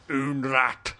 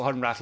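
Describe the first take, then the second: First: Put-on "Unrat" with no H and a hard final T, Polish-accented; mock Polish accent. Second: Said in the usual way. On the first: Adamski naming his acquaintance, "Unrat" in mock Polish accent. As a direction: say "Unrat" as a Polish caricature, H dropped. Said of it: "used to call Hunrath, like". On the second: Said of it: "I think Adamski likes to call".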